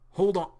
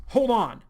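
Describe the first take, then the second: First: "Hold on." called out firmly, a bit higher and louder. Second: "Hold on." shouted higher and louder, falling hard on "Hold"; louder demand. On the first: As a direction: stop him with a firm "Hold on.". John stops Arlo. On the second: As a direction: insist with a loud sharp "Hold on.". John stops Arlo again, harder. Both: Acted.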